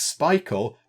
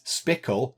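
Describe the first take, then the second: First: The name rhymes with Michael, long vowel. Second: The name rhymes with pickle, short vowel. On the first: The speaker calls it right. "they said it's Spikle, like Michael" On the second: The speaker calls it wrong. "you might think it's Spickle, like pickle"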